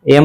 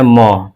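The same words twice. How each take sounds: First: Said in the usual way. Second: म as a short "muh"; teacher demonstrating म as M; phonic M sound. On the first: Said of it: "एम नहीं बोलना है". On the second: Shown as a demonstration. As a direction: sound out म, not the name "em". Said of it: "आपको बोलना है म".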